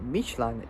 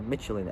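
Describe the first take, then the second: First: It is said with a French pronunciation. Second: It is said with an English pronunciation.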